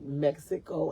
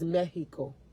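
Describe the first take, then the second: First: It is said with an English pronunciation. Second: It is said with a Spanish pronunciation.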